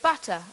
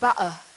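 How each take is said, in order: First: It is said in a standard accent. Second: It is said in a Cockney accent.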